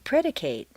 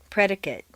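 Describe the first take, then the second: First: The last syllable has a full 'ay' vowel. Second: The last syllable has a weak reduced vowel. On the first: It is used as a verb. "a full a sound" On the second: It is used as a noun or adjective. "completely reduced to mt"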